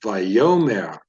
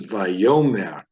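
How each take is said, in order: First: The stress falls on the second syllable. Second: The stress falls on the second syllable.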